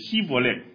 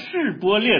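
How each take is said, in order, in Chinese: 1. 这个词以 s 音开头。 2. 这个词以 sh 音开头。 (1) "会讲成西波列" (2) "他们在讲示波列的时候"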